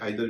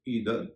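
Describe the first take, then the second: First: The first vowel sounds like 'eye'. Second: The first vowel sounds like 'ee'.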